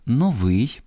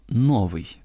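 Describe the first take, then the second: First: Новий stressed on the final -вий; stress on last syllable. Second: Новий stressed on the first syllable но-; non-standard stress. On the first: Host reads the correct form for listeners, final-syllable stress on новий. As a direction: lift and stretch -вий in новий. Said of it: "я зараз правильно читаю". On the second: Host quotes everyday mistaken speech, first-syllable stress on новий. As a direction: hit но- in новий, let -вий fall. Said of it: "раз по раз чуємо". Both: Shown as a demonstration.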